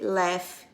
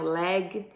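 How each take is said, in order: First: The word ends with an F sound. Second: The word ends without an F sound. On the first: The speaker calls it right. "a pronúncia aqui vai ser laugh" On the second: The speaker calls it wrong. "e não leg"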